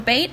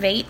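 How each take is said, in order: First: The word begins with a b sound. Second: The word begins with a v sound. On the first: "the b" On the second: "the v"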